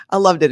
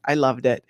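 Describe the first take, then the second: First: Loved hit louder, voice falling after it; stress on loved. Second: Said in the usual way. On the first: Real, not acted. To her viewers about Tony's coffee, loved stressed. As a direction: lean into loved, she really means it.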